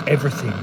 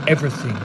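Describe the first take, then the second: No difference in how they are said.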